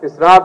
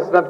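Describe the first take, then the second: First: The second syllable has a long vowel. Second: The second syllable has a short vowel. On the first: The speaker calls it right. "इसनाद लफ्ज है" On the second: The speaker calls it wrong. "इसनद कोई लफ्ज नहीं है"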